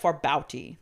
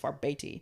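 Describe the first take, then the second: First: The name is read as spelled, sounding the U. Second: The name is said without the spelled U sound. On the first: The speaker calls it wrong. "it looks like Farbauti, like because it has like a U in it" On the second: The speaker calls it right. "but the pronunciation was Farbeti"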